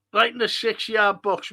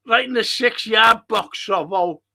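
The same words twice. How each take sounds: First: Said in the usual way. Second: Shouted instruction at the pitch; loud urging call. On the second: Real, not acted. Fan urging striker toward the six-yard box, loud. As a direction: bark it at the player, loud. Urging player during live match.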